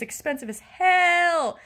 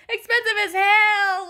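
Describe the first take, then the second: First: Real frustration, stretched out slowly; exasperated venting. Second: High, loud, slow outburst; real frustrated yell, pitched way up; exasperated shout. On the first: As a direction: draw it out in frustration. Venting about cost, first take. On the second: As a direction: shout it out, stretching every word. Repeats it as an outburst. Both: Real, not acted.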